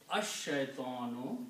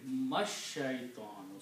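First: The word begins on its own without an m. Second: The word begins joined to a preceding m sound. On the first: The word is read on its own. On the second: The words are read together in one flow. "You combine meem with the sheen"

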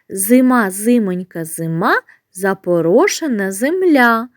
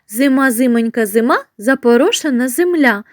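First: It is spoken at a slow, ordinary pace. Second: It is spoken at the fastest pace.

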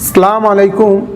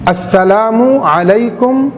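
First: The greeting is clipped, with sounds left out. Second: The greeting is said in full, every sound clear. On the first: The speaker calls it wrong. "এই ধরনের উচ্চারণ করে ভঙ্গিমা করে সালাম না দেওয়া" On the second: The speaker calls it right. "সালামের শুদ্ধরূপ হল"

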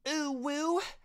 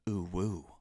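First: The voice is at a higher pitch. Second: The voice is at a deeper pitch. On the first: "What do you guys think about my ooh woo though?" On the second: "or I guess you do it in a deeper voice"

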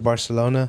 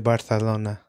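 First: The 'c' is said as a plain s. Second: The 'c' is said as a lisped th. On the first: This is the local way of saying it. "how we say Barcelona" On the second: This is how people in Spain say it. "They say Barcelona"

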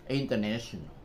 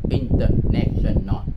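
First: It is said linked, with American English stress. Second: It is read syllable by syllable, Vietnamese style.

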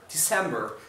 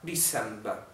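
First: American accent with a strong R sound. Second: British accent with a soft R sound. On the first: "sempre com esse R muito forte" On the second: "Olha como é que o britânico vai falar"

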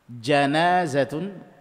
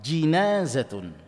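First: The first vowel is an open a sound. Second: The first vowel is a close i sound. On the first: "Jimnya bisa di fathah" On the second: "atau di kasrah"

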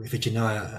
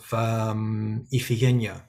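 First: The name is said in the English way. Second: The name is said in a non-English way.

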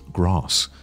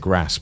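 First: It is said in Received Pronunciation. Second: It is said in a non-RP English accent. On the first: "received pronunciation, which is the typical accent" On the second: "my accent is English, right? But it's not received pronunciation"

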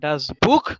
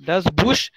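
First: The word ends with a harsh kh sound. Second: The word ends with a soft sh sound. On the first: The speaker calls it right. "Otherwise, it is KH" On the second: The speaker calls it wrong. "बुश नहीं आएगा इधर अभी"

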